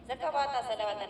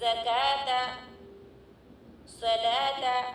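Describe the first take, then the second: First: A 'wa' sound is pronounced inside each word. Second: No 'wa' sound is pronounced inside either word. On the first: The speaker calls it wrong. "लेकिन ज़कवाता सलावाता नहीं पढ़ना चाहिए" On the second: The speaker calls it right. "सिर्फ ज़काता सलाता"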